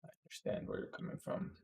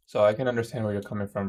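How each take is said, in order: First: Breathy whispered repeat; whispering. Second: Said in the usual way. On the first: Shown as a demonstration. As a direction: whisper it back softly.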